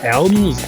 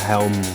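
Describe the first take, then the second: First: The word starts without an h sound. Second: The word starts with an h sound. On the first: The speaker calls it wrong. "you can mispronounce it as elms" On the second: The speaker calls it right. "the way I said helms there"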